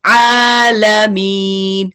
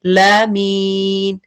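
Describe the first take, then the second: First: आलमीन with a short clear ल, the आ drawn out; आलमीन, lam neither hard nor stretched; correct आलमीन. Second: लामीन with the ल pulled onto a long vowel; wrong reading लामीन, alif after the lam. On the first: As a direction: recite आलमीन slowly with a medium lam. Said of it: "ये है middle way". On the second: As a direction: misread it as लामीन, the lam stretched. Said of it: "वो भी wrong हो जाएगा". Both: Shown as a demonstration.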